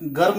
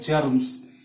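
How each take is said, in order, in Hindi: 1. शब्द की शुरुआत "hard g" ध्वनि से होती है। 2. शब्द की शुरुआत "j" ध्वनि से होती है। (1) "यह गर्म नहीं है" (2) "यह है जर्म्स"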